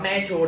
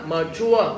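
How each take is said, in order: First: Mature with a "may" first syllable; mispronounced mature. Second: Mature with a short muh, then CHUA; stress on second syllable. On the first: Retold or imitated. Teacher warns a student about misreading, mispronounced mature. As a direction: say mature wrongly as MAY-chua. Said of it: "Giờ con đọc mature nữa". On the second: Shown as a demonstration. Teacher gives students the correct reading, second-syllable stress. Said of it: "Nhóm bài thứ hai".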